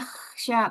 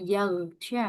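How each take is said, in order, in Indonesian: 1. Konsonan tengahnya bunyi kh yang kasar. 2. Konsonan tengahnya bunyi g yang keras. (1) "kalau kita kho-nya betul" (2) "huruf kho bisa jadi go"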